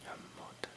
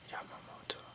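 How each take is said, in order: Both takes have the same delivery.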